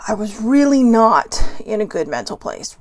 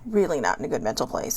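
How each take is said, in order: First: Said in the usual way. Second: Dropped low and soft, almost to herself; soft repeat. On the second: Real, not acted. Repeating her bad day to viewers, softer and lower. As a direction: echo it quietly under the breath.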